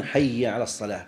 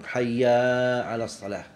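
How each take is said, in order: First: Said in the usual way. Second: "حي" held long on its final vowel, "hayyaaa"; lengthened hayya. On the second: Shown as a demonstration. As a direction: stretch the end of "حي" before "على الصلاة". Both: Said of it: "بعض".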